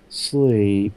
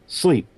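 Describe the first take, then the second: First: It is drawn out slowly. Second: It is said short and sharp.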